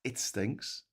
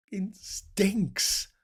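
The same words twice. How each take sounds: First: Said in the usual way. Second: "stinks" drawn out and pitched up; emphatic STINKS. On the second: Real, not acted. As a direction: stretch the word "stinks" for comic emphasis. Repeats verdict with exaggerated emphasis.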